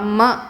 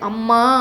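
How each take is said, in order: First: The final vowels are short and plain. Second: The final vowels are drawn out long. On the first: This is the proper way to call. "முறைப்படி" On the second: It carries feeling and sounds sweet. "உணர்வுக்கும் இனிய ஓசைக்கும் அளவெடுத்தல் பயன்படுகிறது"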